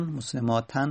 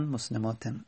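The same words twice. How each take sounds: First: مسلماتن ending in "-tan", with an open a; fatha tanvin. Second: مسلماتن ending in "-ten", with an e vowel; kasra tanvin. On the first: Teacher listing tanvin endings without al, مسلماتن said with final "-tan". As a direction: end مسلماتن on a clear "-tan". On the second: Teacher listing tanvin endings without al, مسلماتن said with final "-ten". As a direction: end مسلماتن on "-ten", dropping softer. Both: Shown as a demonstration.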